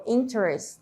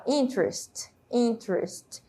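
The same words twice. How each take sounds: First: "interest" with the middle E pronounced, in-ter-est; sounded E. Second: "interest" as two syllables, in-trest; silent E. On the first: Teacher shows what she doesn't say, "interest" with full E. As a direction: give "interest" all three syllables. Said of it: "Eu não falo interest". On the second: Teacher shows how it's said, "interest" as in-trest. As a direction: drop the first E of "interest". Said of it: "como se essa letra E não existisse também". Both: Shown as a demonstration.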